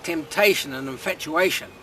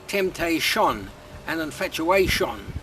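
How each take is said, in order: First: The word endings are said without extra stress. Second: The word endings are said with heavy stress. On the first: The speaker calls it right. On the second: The speaker calls it wrong.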